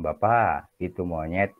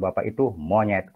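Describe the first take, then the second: First: "Bapak itu monyet" said slowly, rising on "Bapak"; slow and rising on "Bapak", as a calm statement of fact; judge's factual statement. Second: "Bapak itu monyet" with a falling push on "itu"; insulting tone. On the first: Teacher demonstrating a judge's neutral reading, slow rise on "Bapak". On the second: Teacher demonstrating the rude insulting reading, falling on "itu". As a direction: drop hard on "itu" so the line becomes an insult. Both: Shown as a demonstration. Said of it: "Beda intonasi kan beda makna".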